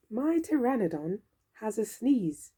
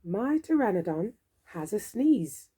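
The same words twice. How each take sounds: The two takes are said the same way.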